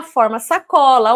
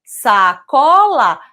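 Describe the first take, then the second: First: Said in the usual way. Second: "Sacola" stretched very slowly, "sa" set apart; syllable by syllable. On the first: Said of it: "Ah, forma sacola". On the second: Shown as a demonstration. Teacher adding a syllable to cola, "Sacola" syllable by syllable. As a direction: say "Sacola" slow and loud, in separate pieces. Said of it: "se lá no início eu colocar o sa".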